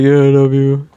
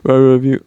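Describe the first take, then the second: First: Lightly voiced goofy Scooby-Doo impression of Mingi; a hint of a dopey cartoon dog drawling the line. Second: The same line, barely voiced as Mingi; Mingi's reply. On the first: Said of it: "why did I just say it like Scooby-Doo". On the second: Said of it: "He was like".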